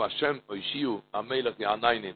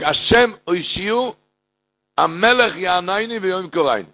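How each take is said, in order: First: Soft murmured prayer. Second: Sung out high, like a cantor's chant; chanted, intone the prayer as a melody. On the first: Prayer words repeated softly. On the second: Preacher chanting the Elul prayer to the congregation, melodic intoning. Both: Acted.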